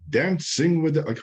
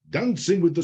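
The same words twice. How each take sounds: First: It is said in his normal speaking voice. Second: It is said in a put-on showman voice. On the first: The speaker calls it wrong. "I should wait a minute" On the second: The speaker calls it right. "I need to do the right voice"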